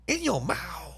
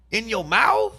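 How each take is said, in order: First: Softer, muttered repeat; quiet stunned echo; hushed disbelief. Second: High, loud and aghast; louder incredulous take; shocked disbelief. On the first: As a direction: let it sink in under your breath. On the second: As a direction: blurt it out scandalized. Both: Real, not acted. Repeating shocking detail in disbelief.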